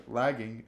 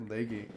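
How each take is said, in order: First: Said in the usual way. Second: Lagging said as "LAY-ging"; long-a lagging. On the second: Real, not acted. Word list, tries two pronunciations.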